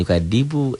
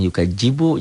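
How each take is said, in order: First: The middle consonant is a plain d sound. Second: The middle consonant is a j sound.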